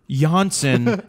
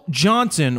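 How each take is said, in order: First: The name begins without a J sound. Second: The name begins with a sounded J.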